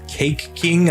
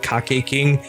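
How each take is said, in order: First: Cake is pronounced the usual English way. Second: Cake is pronounced with Japanese-style vowels. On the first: The speaker calls it right. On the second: The speaker calls it wrong.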